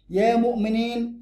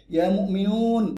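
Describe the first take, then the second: First: "مؤمنين" slow and raised, ending in long -iin; slow teaching model, "مؤمنين" with -iin; accusative plural ending. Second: "مؤمنون" slow, ending in long -uun; slow teaching model, "مؤمنون" with -uun; nominative plural ending. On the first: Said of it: "ياء ونون يبقى منصوب". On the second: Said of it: "واو نون". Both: Shown as a demonstration.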